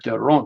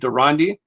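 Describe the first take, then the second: First: The surname is said with a Dutch pronunciation. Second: The surname is said with an American pronunciation. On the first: "actual official pronunciation in the Netherlands was probably Deron" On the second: "in the U S A was we would say Durandi"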